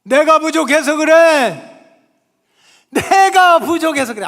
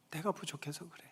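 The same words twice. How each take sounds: First: Higher, louder, slow, 내가 hammered; fervent shout. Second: Soft take, 내가 said low and quiet. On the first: Preacher leading congregation, shouting. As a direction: cry out 내가 부족해서 그래 slowly. Repeated phrase, shouted take. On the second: Preacher whispering self-blame, soft. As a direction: murmur 내가 부족해서 그래 softly. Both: Real, not acted.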